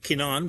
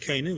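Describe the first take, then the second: First: The name is said the ancient Hebrew way. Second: The name is said the usual English way. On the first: This is how the Israelites named the land. "would be their way of pronouncing it" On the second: This is how we name the land today. "What we call it"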